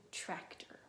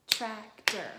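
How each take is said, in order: First: Said in the usual way. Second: "Tractor" very loud, split TRAC-TOR; clapped-out syllables. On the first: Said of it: "Let's do tractor". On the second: Shown as a demonstration. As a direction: clap out two hard beats on "Tractor". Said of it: "Clap it".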